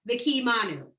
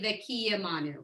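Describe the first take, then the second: First: It is said fast with the short vowel dropped. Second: It is said with the short vowel pronounced. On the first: The speaker calls it wrong. "When you do it fast, it comes out" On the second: The speaker calls it right. "but it's actually"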